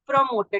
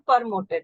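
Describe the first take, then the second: First: The p is followed directly by an r sound. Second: The p is not followed directly by an r sound. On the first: The speaker calls it right. "So promoted" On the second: The speaker calls it wrong. "not promoted"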